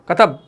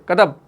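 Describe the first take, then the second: No difference in how they are said.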